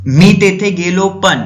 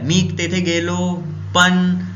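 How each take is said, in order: First: Loud, slow, stopping short on पण; broken-off sentence. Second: Very slow, पण left hanging; trailing off. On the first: Teacher showing a thought that breaks off, loud and slow. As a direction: start strong, then cut off at पण. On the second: Teacher repeating the broken-off example, very slow and trailing. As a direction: let the words fade and stop on पण. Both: Shown as a demonstration. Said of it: "अब उसके आगे अपन बताए नहीं, रुक गए".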